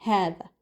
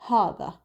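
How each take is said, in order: First: Said in the usual way. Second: "هذا" with a dark, heavy "haw" opening; heavier first syllable. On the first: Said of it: "not هذا". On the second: Shown as a demonstration. Teacher showing the Gulf pronunciation, heavy first syllable. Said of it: "they make it heavier".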